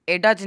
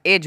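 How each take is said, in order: First: एडज with the D sounded, eh-duj; wrong pronunciation with D. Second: एज said as ej, no D sound; correct silent D. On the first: Teacher shows students the wrong way, D sounded. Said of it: "एडज नहीं हुआ है". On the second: Teacher gives students the right form, silent D. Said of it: "एज हुआ है". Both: Shown as a demonstration.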